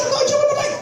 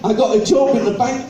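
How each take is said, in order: First: Much higher, plummy posh lady voice; second try at the bank clerk line, fully in character; full posh lady. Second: A hint of the posh lady, only slightly raised; half-hearted go at the lady's voice; first try at the posh lady, not yet in voice; lightly voiced posh lady. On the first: Retold or imitated. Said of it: "I told her". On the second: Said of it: "she said".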